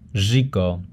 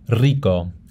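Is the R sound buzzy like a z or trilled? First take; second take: buzzy; trilled. First: The R is a buzzing, z-like sound. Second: The R is a rolled trill. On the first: "The second type of R is the asibilada. It sounds like this, z" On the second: "Here's some more examples of the initial and double"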